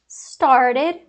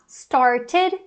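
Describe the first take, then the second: First: The ending is said weakly and reduced. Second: The ending is said strongly and fully. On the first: "eu acabo falando mais fraco" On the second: "mais forte"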